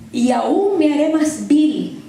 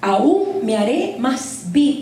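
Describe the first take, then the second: First: Drawn out, stressing aún; slow, weighty, leaning on aún; slow emphatic vow. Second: Very slow, stressing aún again; slower repeated vow. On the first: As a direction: vow it slowly, pressing each word. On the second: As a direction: spell out aún me haré más vil slowly. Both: Retold or imitated. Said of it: "Pero le dice".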